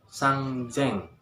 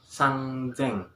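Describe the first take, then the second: The two takes are said the same way.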